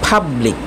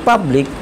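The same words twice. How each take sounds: First: The first P has a puff of air. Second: The first P has no puff of air. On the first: The speaker calls it right. "এটা সঠিক উচ্চারণ হবে পাবলিক" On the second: The speaker calls it wrong. "আমরা বলি পাবলিক"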